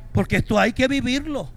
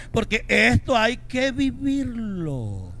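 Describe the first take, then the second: First: Said in the usual way. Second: Porque esto hay que vivirlo stretched slowly; preacher drawing out the point; slow emphasis. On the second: Shown as a demonstration. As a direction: lean on each word slowly.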